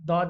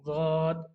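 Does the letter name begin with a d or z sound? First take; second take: d; z. First: The name begins with a d sound. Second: The name begins with a z sound. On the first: The speaker calls it wrong. "दाद नहीं पढ़ेंगे" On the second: The speaker calls it right. "पढ़ेंगे"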